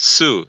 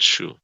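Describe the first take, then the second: First: The syllable starts with a plain s sound. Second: The syllable starts with an sh sound. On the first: The speaker calls it right. "It's Sue" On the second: The speaker calls it wrong. "It's not shoe"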